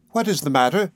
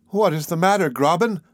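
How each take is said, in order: First: Said in the usual way. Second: Mildly exclaimed question, pitched higher; exclaiming. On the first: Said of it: "she said, holding out her hand". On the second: A narrator's reading. Nephew answering Graben's concern, exclaiming. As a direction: cry the question back at the other person. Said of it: "I cried".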